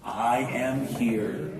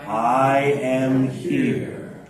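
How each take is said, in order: First: Slow spoken. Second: Sung. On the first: Teacher setting up the chant, spoken slowly. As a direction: speak each word apart, gently. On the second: Leading the group in the sung phrase. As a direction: sing "I am here" long and held. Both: Shown as a demonstration. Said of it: "we start with".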